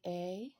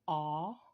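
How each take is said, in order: First: The vowel is said with its long sound. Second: The vowel is said with its short sound. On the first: "The long sounds are basically A" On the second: "The short version of the vowel says A"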